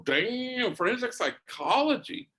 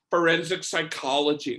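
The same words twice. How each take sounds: First: High, rising amazed repeat of forensic psychology; wow, she really said forensic psychology; impressed surprise. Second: Said in the usual way. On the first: Retold or imitated. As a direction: savor each word like you can't believe it. Priest impressed by her answer.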